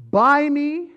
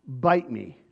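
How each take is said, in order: First: High, loud whiny plea; mocking high wheedling voice; pleading buy me. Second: Low, curt dismissal; mild mocking sneer; defiant bite me. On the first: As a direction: beg like a spoiled child. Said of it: "it's not a really long distance between". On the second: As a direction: throw it off with contempt. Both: Shown as a demonstration.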